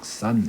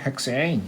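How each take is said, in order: First: The word ends with a plain Korean 'san' sound. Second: The word ends with an English-like 'sein' sound. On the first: This is the plain, unsophisticated way of saying it. "저는 그냥 헥산 이렇게 촌스럽게 발음하겠습니다" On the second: This is how the professors say it. "교수님들은 헥세인 이렇게 발음하시는데요"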